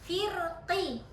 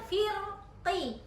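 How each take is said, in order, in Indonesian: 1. Kata ini berakhir dengan vokal penuh yang jelas. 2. Kata ini berakhir dengan vokal penuh yang jelas.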